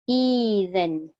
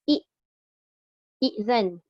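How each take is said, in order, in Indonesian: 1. Vokal pembuka dibaca panjang, dua ketukan. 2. Hentian glotis mengikuti vokal pembuka yang pendek. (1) "bila ditukarkan kepada ya maka dia jadi izan" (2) "dari segi penulisan tu kalau kita tengok"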